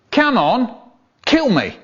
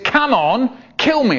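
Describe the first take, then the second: First: Higher, louder pushy bloke; mock bloke. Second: Higher, louder insistent bloke; mock bloke, pushier. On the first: Stranger on the train urging the poet, in a mock voice. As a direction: egg him on. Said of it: "this bloke turned to me and said". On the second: Stranger on the train repeating his demand, louder and pushier. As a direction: press him harder. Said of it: "And he said".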